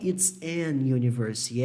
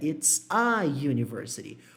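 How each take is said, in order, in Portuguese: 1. Um som de n vem antes de university. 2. Nenhum som de n vem antes de university. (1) "Eu não falei it's an university" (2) "é it's a university"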